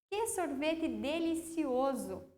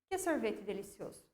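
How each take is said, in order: First: It is said with excited, exclamatory intonation. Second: It is said flatly, without exclamation.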